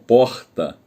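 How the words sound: It is said in a Rio accent. This is how people from Rio say it. "nós falamos"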